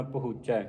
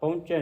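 First: ਪਹੁੰਚੈ as "pa-huch-chai", without the nasal; corrected ਪਹੁੰਚੈ. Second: ਪਹੁੰਚੈ as nasal "paunche"; mispronounced ਪਹੁੰਚੈ. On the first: Teacher modelling the reading, ਪਹੁੰਚੈ as "pahuchchai". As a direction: sound the h and open final "ai" in ਪਹੁੰਚੈ. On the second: Teacher showing the reading to avoid, ਪਹੁੰਚੈ as "paunche". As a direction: merge ਪਹੁੰਚੈ into a nasal "paun-che". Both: Shown as a demonstration. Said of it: "ਪਹੁੰਚੈ ਨਹੀਂ ਪੜ੍ਹਨਾ".

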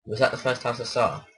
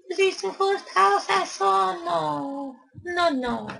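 First: Said in the usual way. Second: Very high, squeaky little voice. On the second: Acted. Gamer asking himself about the house, squeaky high voice. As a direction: ask it like a tiny cartoon critter, way up high.

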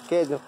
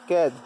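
No difference in how they are said.

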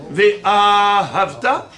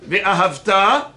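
First: "Ve'ahavta" drawn out slowly as ve-AAA-havta; stress at the start. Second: "Ve'ahavta" with a long final "ta"; "Ve'ahavta" as ve-ahav-TAA; stress at the end. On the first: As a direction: hold the "a" of "Ve'ahavta" very long before "havta". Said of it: "Il est au début du mot". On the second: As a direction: lean on the last syllable of "Ve'ahavta". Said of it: "ou bien à la fin du mot". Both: Shown as a demonstration.

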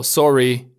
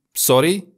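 First: "sorry" with a softened English-like r. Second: "sorry" with a lightly rolled r; slightly rolled R. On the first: Teacher modelling the variant, English-like r in "sorry". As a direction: say "sorry" with an untrilled, slightly English r. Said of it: "cu un R puțin asemănător cu cel din limba engleză". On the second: Teacher modelling German usage, lightly rolled r in "sorry". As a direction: roll the r a little in "sorry". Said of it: "cu un R puțin rostogolit". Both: Shown as a demonstration.

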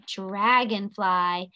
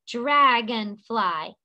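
First: Said in the usual way. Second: "Dragonfly" slowly, in three beats: drag-on-fly; split into syllables. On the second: Shown as a demonstration. Teacher tapping shoulders with the class, "Dragonfly" syllable by syllable. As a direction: draw out each syllable of "Dragonfly", one per tap. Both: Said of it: "Let's tap our shoulders".

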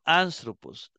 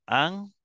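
First: Said in the usual way. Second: ANTHROPOS broken into an, thro, pos; "Anthropos" with long pauses between syllables. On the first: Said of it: "la mantiene en la tercera". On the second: Shown as a demonstration. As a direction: count out "Anthropos" in three separated syllables. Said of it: "La primera, la segunda y la tercera".

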